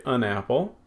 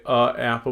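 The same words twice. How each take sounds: First: "an apple" with an n joining the two words; linking n before apple. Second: "a apple" with separate vowels, no linking n; hiatus before apple. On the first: Teacher showing students what we do say, "an apple" linked by n. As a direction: say "an apple", the n bridging into the vowel. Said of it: "we say an apple". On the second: Teacher showing students what we don't say, "a apple" with no n. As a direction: say "a apple" with the article "a" left bare before the vowel. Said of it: "we don't say". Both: Shown as a demonstration.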